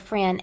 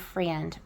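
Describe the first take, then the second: First: The word ends without a d sound. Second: The word ends with a clear d sound. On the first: The person is part of a close inner circle. "F R E N" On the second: The person is an ordinary friend. "not a friend"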